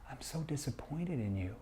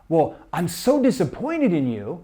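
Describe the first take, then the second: First: It is said in a caring, concerned tone. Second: It is said in an angry tone.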